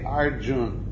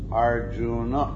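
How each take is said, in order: First: The name ends on a consonant sound. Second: The name ends on a vowel sound. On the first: "like in Hindi, they say Arjun" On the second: "But in Sanskrit, it's Arjuna"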